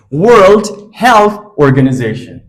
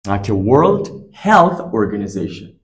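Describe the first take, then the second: First: "World Health Organization" said slowly and louder, each word stressed; slow emphatic repeat. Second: Said in the usual way. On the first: Shown as a demonstration.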